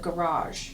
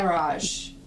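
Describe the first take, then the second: First: It is said with an American pronunciation. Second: It is said with a British pronunciation.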